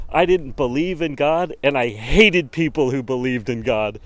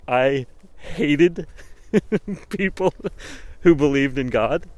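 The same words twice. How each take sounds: First: Said in the usual way. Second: "hated" drawn out and stressed, breaking into a laugh; mock emphatic hate. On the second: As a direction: lean hard on "hated" while laughing. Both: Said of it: "And the way he said".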